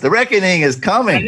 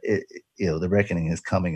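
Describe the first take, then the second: First: It is said in a dramatic preacher voice. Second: It is said in an ordinary speaking voice.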